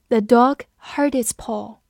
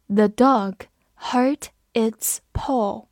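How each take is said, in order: First: Said in the usual way. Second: Slow, whispered, word by word; slow reading. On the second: Shown as a demonstration. Teacher reading the sentence slowly for students. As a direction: read it slowly for learners. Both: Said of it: "我们慢读一遍".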